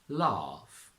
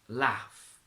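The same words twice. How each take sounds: First: It has a long 'ah' vowel. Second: It has a short flat 'a' vowel. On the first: "a long R in R P" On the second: "the R turns into a A"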